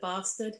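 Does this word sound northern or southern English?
southern. It is said with a southern English accent. It is the speaker's original way of saying it. "instead of bastard"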